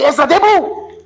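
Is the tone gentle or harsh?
harsh. It is said in a harsh, angry tone.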